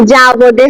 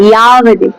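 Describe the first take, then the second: First: যাবদে said with a Bengali ja, slowly and low; teacher models the wrong যাবদে with a ja sound; wrong Bengali reading. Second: ইয়াবদে said with a ya glide instead of ja, low; teacher gives the right ইয়াবদে with ya; correct Sanskrit reading. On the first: Teacher warns students against Bengali যাবদে, slow and low. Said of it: "যাবদে হয় না সংস্কৃতে". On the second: Teacher corrects the students' যাবদে to ইয়াবদে. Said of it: "যাবদে হয় না". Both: Shown as a demonstration.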